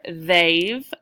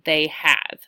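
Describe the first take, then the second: First: The two words merge into one syllable. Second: The two words are said as separate syllables. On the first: "I shortened it" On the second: "I could have said they have"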